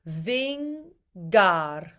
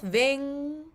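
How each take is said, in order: First: The middle has a released hard g sound. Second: The middle is a soft nasal ng sound. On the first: "you're using the middle of your tongue and then you're releasing some air as you pronounce the G" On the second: "The back of his tongue is hitting the top of his mouth"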